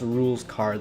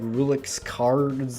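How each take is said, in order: First: The first word has one syllable. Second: The first word has two syllables. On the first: The speaker calls it right. "it's pronounced rules card, like a rules card" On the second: The speaker calls it wrong. "I think I said something like Rulix Cards"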